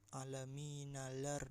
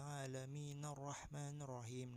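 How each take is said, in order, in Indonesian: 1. Bunyi L diucapkan sebelum R. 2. L tidak dibaca, menyambung menjadi R ganda. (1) "Jangan bacanya alaminalar. Nah, salah tuh" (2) "lam di atasnya itu kada dibaca"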